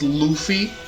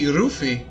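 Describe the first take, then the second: First: The name begins with an L sound. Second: The name begins with an R sound. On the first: "the main character of One Piece is Luffy" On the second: "you say Ruffy in Japanese"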